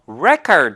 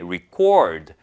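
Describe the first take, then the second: First: The stress is on the first syllable. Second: The stress is on the second syllable. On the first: It means a written account. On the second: It means to write down or record.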